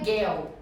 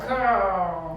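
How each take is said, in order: First: The R is said without curling the tongue. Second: The R is said with the tongue curled back. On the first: The speaker calls it wrong. "é uma pronúncia que não é legal, é um sotaque forte" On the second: The speaker calls it right. "você tem que dar esse giro na língua"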